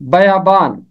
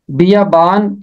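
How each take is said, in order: First: बयाबान with a short a after ब, no i; teacher giving the correct बयाबान; correct pronunciation. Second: बियाबान with an i vowel after ब, the common mistake; teacher showing the mistaken बियाबान; wrong pronunciation. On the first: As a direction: say बयाबान the right way, bə-yā-bān. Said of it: "इसका दुरुस्त तलफ़ुज़ है बयाबान". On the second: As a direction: say बियाबान the incorrect way. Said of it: "इसका तलफ़ुज़ नहीं है". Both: Shown as a demonstration.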